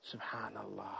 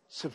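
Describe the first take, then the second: First: It is said fully, slowly and with feeling. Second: It is clipped into one fast mumbled syllable. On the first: The words are said while reflecting on their meaning. The speaker calls it right. "has to come from the deep, from your heart" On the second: The words are said without thought. The speaker calls it wrong. "how they are moving so fast"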